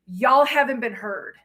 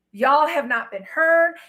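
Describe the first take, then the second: First: Said in the usual way. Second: "not" in "Y'all have not been heard" pulled apart and leaned on, slow; stress on NOT. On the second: Shown as a demonstration. Telling masculines they have not been heard, stressing not. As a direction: spell out "have not" deliberately, slowly.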